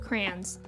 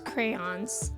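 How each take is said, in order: First: The word is said with one syllable. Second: The word is said with two syllables. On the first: "like one syllable crayons" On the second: "I'm actually making myself pronounce that word as crayons"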